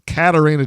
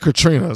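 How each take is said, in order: First: The name is said as Katarina. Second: The name is said as Katrina. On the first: The speaker calls it right. "It's Katarina Jinx" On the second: The speaker calls it wrong. "I've been saying Katrina. Sorry"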